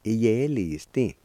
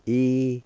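First: "Iyelisti" slowly but as one word; careful, connected teaching take of "Iyelisti"; joined-up pronunciation. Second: "Iyelisti" louder and higher, each syllable held apart; syllable-by-syllable pronunciation. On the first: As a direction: link the syllables of "Iyelisti" smoothly. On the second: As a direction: sound out "Iyelisti" with long pauses between syllables. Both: Shown as a demonstration. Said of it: "is pronounced like this".

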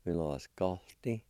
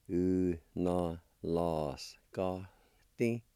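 First: Said in the usual way. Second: Slow, drawn-out syllables; teacher's careful word model. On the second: Shown as a demonstration. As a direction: sound out "U na la skalti" piece by piece. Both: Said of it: "sound like this".

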